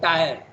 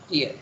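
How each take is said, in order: First: The word rhymes with 'fire'. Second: The word rhymes with 'fear'. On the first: The speaker calls it wrong. "Very often in India we pronounce the word tire" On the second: The speaker calls it right. "but it's actually pronounced tier"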